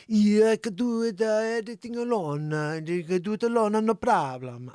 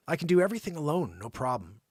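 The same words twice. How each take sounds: First: Hammed-up Italian accent, louder; mock Italian accent. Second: Said in the usual way. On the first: Host mocks the Italian patient in a light Italian accent. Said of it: "that's the best Italian I could do". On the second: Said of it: "freaking Italian".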